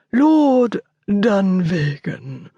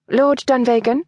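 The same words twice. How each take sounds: First: Butler announcing, very slow and drawn out; formal announcement. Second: A questioning Lord Dunvegan?, higher and rising at the end. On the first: The butler presents the lord at the study door, slow formal announcement. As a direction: announce the name slowly to the room. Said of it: "he announced". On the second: Miss Walcott greets her visitor, a questioning rise. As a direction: ask it, checking who he is. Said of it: "she was asking". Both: Acted.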